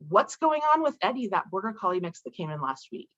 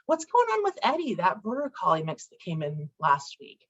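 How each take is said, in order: First: The tone is harsh and critical. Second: The tone is mild and friendly. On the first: It is an accusation of failure. "it might sound really aggressive and critical" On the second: It is a harmless question. "in my head, it sounds like... it sounds benign"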